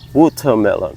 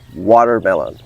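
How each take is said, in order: First: It is said with a British English accent. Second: It is said with an American English accent. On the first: "In British" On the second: "In American English"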